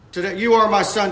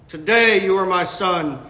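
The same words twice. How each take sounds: First: "you" lifted and pressed, "Today" said lightly before it; stress on you. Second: "Today" leaned on, the rest of "you are my son" lighter; stress on Today. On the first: Preacher rereading the psalm to his congregation, now stressing "you". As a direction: push the word "you" as the point of the line. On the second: Preacher reading the psalm to his congregation, stressing "Today". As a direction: hit "Today" hard, then let "you are my son" fall. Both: Shown as a demonstration. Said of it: "And notice the emphasis".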